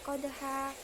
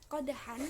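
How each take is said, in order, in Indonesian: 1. Kata ini berakhir dengan vokal panjang. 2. Kata ini berakhir dengan bunyi n. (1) "maka jadi qadha" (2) "qadhan karena diwakofkan"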